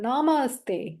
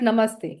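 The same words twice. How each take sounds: First: It is said with an English accent. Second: It is said with a native Hindi accent. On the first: "कोई अंग्रेज आपको नमस्ते करता है तो कैसे बोलता है?" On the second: "दूसरा नमस्ते, फर्क है।"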